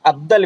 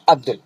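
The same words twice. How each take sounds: First: अब्दल ending in "-dal"; alternative reading. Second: अब्दुल ending in "-dul"; preferred reading. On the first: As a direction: say अब्दल with a short a in the second syllable. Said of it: "भी कुछ लोग इसको पढ़ते हैं". (अब्दल, दूसरे हिस्से में अ के साथ "दल") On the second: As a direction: say अब्दुल with a short u in the second syllable. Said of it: "अब्दल भी कुछ लोग इसको पढ़ते हैं". (अब्दुल, दूसरे हिस्से में उ के साथ "दुल") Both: Shown as a demonstration.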